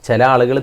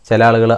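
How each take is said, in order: The two takes are said the same way.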